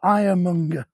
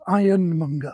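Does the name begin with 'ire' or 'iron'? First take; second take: ire; iron. First: The name begins with 'ire', with no n. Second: The name begins with 'iron', with an n. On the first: The speaker calls it right. "this street is called Ironmonger" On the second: The speaker calls it wrong. "not Ironmonger"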